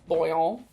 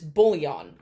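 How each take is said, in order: First: It is said with a French pronunciation. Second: It is said with an English pronunciation. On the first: "in French it's pronounced bouillon" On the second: "The English pronunciation is bouillon"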